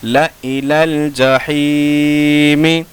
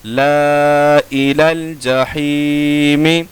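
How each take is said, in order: First: ला इलल जहीमी with a short ला; slow chanted ला इलल जहीमी, alif silent; correct recitation. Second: ला इलल जहीमी with ला held very long; slow chanted ला इलल जहीमी, alif sounded; written-form reading. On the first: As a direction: clip ला, stretch only ही in ला इलल जहीमी. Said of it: "कैसे पढ़ेंगे?". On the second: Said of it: "लिखने का तरीका". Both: Shown as a demonstration.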